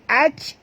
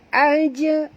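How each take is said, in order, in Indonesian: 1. Bunyi j berhenti datar tanpa gema. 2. Bunyi j dilepas dengan sedikit pantulan. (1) "bukan bunyi dia aj" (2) "tapi bunyi dia aja"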